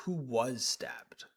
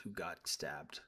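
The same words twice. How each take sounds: First: Slow, weighted "was" in "who was stabbed"; stress on WAS. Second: Said in the usual way. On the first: Real, not acted. Correcting his own wording, slow emphatic stress on "was". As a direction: lean on "was" and draw the phrase out slowly. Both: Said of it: "I shouldn't say got stabbed".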